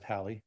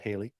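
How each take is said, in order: First: The first syllable sounds like 'hal'. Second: The first syllable sounds like 'hay'. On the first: The speaker calls it right. "please pronounce it Halley" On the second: The speaker calls it wrong. "not Haley"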